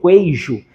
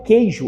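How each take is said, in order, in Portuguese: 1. O u depois do q é pronunciado como w. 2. O u depois do q é silencioso. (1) "eu não digo queijo" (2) "Aqui eu digo queijo"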